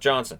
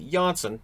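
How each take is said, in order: First: The surname sounds like the English name 'Johnson'. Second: The surname sounds like 'Janssen', with an s. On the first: The speaker calls it wrong. "not Johnson" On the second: The speaker calls it right. "it'll be Janssen"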